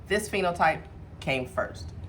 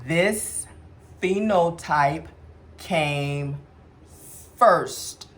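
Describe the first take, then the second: First: The sentence is spoken at a normal pace. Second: The sentence is spoken slowly.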